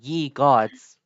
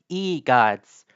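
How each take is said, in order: First: The first word starts with a 'y' sound. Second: The first word starts with a plain vowel. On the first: The speaker calls it wrong. "not ye gods" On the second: The speaker calls it right. "like I say like e gods"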